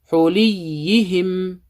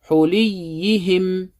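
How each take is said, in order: No difference in how they are said.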